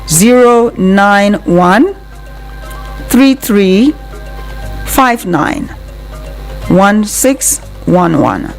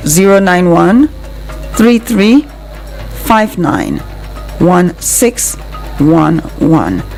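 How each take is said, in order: Both takes have the same delivery.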